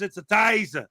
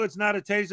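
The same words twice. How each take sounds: First: "taser" with a broad Australian vowel, like "tyza"; Australian-accent taser. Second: Said in the usual way. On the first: Shown as a demonstration. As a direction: say "taser" the Aussie way, as "tie-zuh". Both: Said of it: "'cause he's Australian, too".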